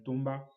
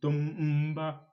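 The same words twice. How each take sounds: First: The m and b are said as one sound. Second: The m and b are said as separate sounds. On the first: The speaker calls it right. "c'est un tomba" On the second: The speaker calls it wrong. "C'est pas un tomba"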